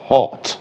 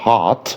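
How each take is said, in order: First: The vowel is short and rounded, like 'aw'. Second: The vowel is open and unrounded, like 'ah'. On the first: "والبريتش هيقولها ايه؟" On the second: "ده لو امريكان هيقولها hot اه"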